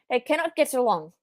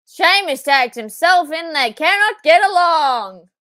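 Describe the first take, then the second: First: Said in the usual way. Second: Loud, slow, higher fan shout; real thrill at the tag; excited shout. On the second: Real, not acted. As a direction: yell it at the screen. Shouting at wrestling on screen.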